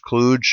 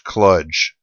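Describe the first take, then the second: First: The word does not rhyme with fudge. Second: The word rhymes with fudge. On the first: "the software guys are free to use kludge" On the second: "the correct pronunciation, at least for our purposes, is kludge. So kludge is in fudge"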